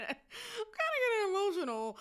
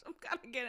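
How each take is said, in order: First: Real tears rising, voice cracking high; tearful, voice breaking. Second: Said in the usual way. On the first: Real, not acted. Vlogger choking up over a male victim, voice breaking. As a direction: let the voice crack as the tears come.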